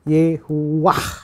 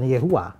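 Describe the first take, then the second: First: The name ends with an audible h sound. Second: The name ends on a plain vowel. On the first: The speaker calls it right. "harusnya Yehuwah" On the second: The speaker calls it wrong. "bukan Yehua"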